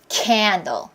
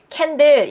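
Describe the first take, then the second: First: The first syllable is long and strongly stressed. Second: Both syllables are flat and even, Korean style. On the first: The speaker calls it right. "원어민 그렇게 얘기하죠" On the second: The speaker calls it wrong. "캔들 이렇게 안 하고"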